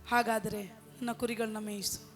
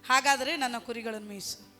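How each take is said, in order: First: It is said slowly. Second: It is said at a normal pace.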